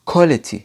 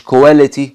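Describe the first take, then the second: First: Quality with a hard k and short o, KWOL-i-tee; correct quality. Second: Quality said wrongly as koo-WEH-leh-tee; the mispronounced quality, drawn out. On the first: Teacher models correct quality for students. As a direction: say quality the British way. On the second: Teacher shows the wrong quality to avoid. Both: Shown as a demonstration. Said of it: "مش quality".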